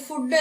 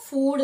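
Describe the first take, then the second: First: "ഫുഡ്" with a short u, like "good"; mispronunciation. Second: "ഫുഡ്" with a long oo; correct long vowel. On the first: Teacher showing the common mistake, "ഫുഡ്" with short u. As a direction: cut the vowel in "ഫുഡ്" short. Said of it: "ഫുഡ് അല്ല". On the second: Teacher correcting the mistake, "ഫുഡ്" with long oo. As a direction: hold the oo in "ഫുഡ്". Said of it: "ഫുഡ് എന്നാണ്". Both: Shown as a demonstration.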